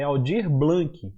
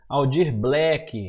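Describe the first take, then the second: First: Both names are said with their usual sounds. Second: The surname ends with a k sound. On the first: The speaker calls it right. "a primeira coisa é você falar o nome correto" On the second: The speaker calls it wrong. "Muita gente fala errado"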